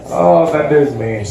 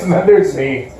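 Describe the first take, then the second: First: Lower, slow self-pitying repeat; deadpan repeat. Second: Said in the usual way. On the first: Shown as a demonstration. Comic repeating his own line in a slow deadpan. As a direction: let it sink in, droopy and slow.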